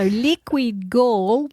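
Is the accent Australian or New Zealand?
Australian. It is said in an Australian accent. "spoken in a true Australian accent"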